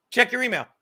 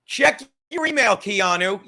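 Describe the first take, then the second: First: Said in the usual way. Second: Calling out. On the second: Real, not acted. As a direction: call it out to get her attention. Calling out to Keanu.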